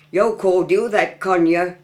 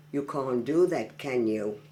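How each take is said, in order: First: Broad Black Country, higher and louder; Black Country dialect. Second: Said in the usual way. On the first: Shown as a demonstration. Local showing off a dialect phrase, broad Black Country. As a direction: say "yo cor do that, con ya" in Black Country.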